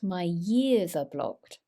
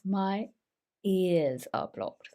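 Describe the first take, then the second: First: The word 'ears' begins with a y sound. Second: The word 'ears' begins with no y sound. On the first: The speaker calls it wrong. "This one doesn't have that y sound, so it's not" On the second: The speaker calls it right.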